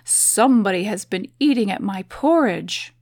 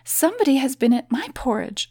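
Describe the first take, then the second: First: It is said in a deep, gruff bear voice. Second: It is said in a medium, middle-sized bear voice.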